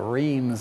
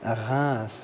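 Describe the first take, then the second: First: It is said the English way. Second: It is said the French way.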